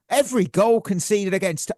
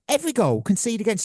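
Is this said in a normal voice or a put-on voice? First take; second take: normal; put-on. First: It is read in his ordinary speaking voice. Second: It is read in an exaggerated character voice.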